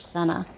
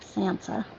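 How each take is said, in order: First: The name has no s sound in the middle. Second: The name has an s sound in the middle. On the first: The speaker calls it wrong. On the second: The speaker calls it right.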